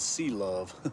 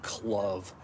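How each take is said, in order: First: The name is said as two syllables. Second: The name is said as one syllable. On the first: The speaker calls it right. "oh no no no no no, it's sea love" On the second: The speaker calls it wrong. "a lot of people will pronounce it clove"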